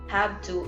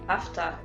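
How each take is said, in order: First: The phrase is said with every sound. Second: The phrase is shortened with sounds dropped. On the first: The speaker calls it right. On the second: The speaker calls it wrong.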